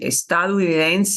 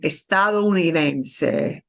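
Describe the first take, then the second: First: The O sound in the middle is nearly dropped. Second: The O sound in the middle is fully pronounced. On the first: "they'll kind of almost omit the O" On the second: "properly spoken"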